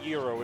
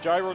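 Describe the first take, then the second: First: It is said like the Greek food. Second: It is not said like the Greek food. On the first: It names the Greek restaurant food. The speaker calls it wrong. "not gyro" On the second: It names the item in the game. The speaker calls it right. "it's gyro"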